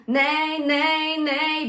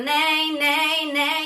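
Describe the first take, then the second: First: Higher, louder sung nay; sung, bright nay. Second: Higher, louder, overly twangy nay; too twangy. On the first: Coach giving the nay reference tone, sung. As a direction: sing nay with bright twang. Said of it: "a reference being nay". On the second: Coach showing the overdone, too-bright nay. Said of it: "too twangy and too bright". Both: Shown as a demonstration.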